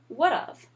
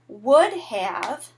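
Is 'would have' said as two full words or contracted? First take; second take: contracted; full. First: It is shortened into one contracted word. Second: Both words are said fully and separately. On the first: "And it becomes would have" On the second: "we would take out the H and the A"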